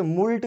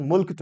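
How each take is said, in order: First: मुल्ट without the k sound; mispronounced मुल्ट. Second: मुल्क्ड with the k sounded; correct pronunciation मुल्क्ड. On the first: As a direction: say मुल्ट, dropping the k before the final t. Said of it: "कुछ लोग इसे मुल्ट कहते हैं". (क की आवाज़ के बिना मुल्ट) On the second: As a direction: say मुल्क्ड with a k before the final t. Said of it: "ये होता है मुल्क्ड होता है". (क के उच्चारण के साथ मुल्क्ड) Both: Shown as a demonstration.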